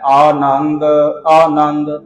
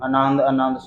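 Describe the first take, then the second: First: The first vowel is drawn out long. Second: The first vowel is short and clipped. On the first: The speaker calls it right. "इहदा आड़ा कन्ना जरूर उचारण करना है। ... थोड़ा इस तरीके नाल" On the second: The speaker calls it wrong. "आड़ा खन्ना छड्ड जाते हैं, ... इस तरह पढ़ते हैं"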